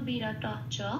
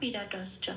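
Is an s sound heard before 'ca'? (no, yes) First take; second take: no; yes. First: No s sound comes before 'ca'. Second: An s sound links into 'ca'. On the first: This follows the original Sanskrit rule. "আদি উচ্চারণ অনুযায়ী ... কেউ এরম ভাবে উচ্চারণ করে না চ্যান্টিং এর সময়" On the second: This is how it is usually chanted. "এরম এরম ভাবেই আমি উচ্চারণ করছি"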